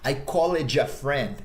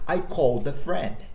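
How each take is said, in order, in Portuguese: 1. Fala-se com um forte sotaque brasileiro. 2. Fala-se com sotaque nativo de inglês. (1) "que é um sotaque muito brasileiro" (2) "Você deve dizer"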